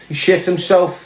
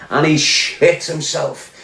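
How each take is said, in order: First: Said in the usual way. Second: "shit" drawn out slowly, each word weighted; slow emphatic repeat. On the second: Real, not acted. Hammering home the rival's cowardice, slow and weighted. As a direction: land "he shit himself" slow and heavy.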